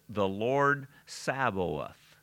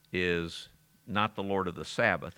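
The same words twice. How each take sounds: First: "Sabaoth" slowly spelled out as sa-bo-oth; teacher separating "Sabaoth" from Sabbath by saying it slowly; careful Sabaoth. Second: Said in the usual way. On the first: Shown as a demonstration. Slow deliberate pronunciation.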